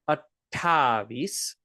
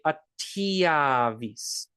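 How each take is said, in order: First: It is said with a plain 'ta' before 'avis'. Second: It is said with a 'tya' glide before 'avis'. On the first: This is how the word is written. "This number is spelled attavis" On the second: This is how people say it in speech. "many people, when they talk, they're going to say attiavis"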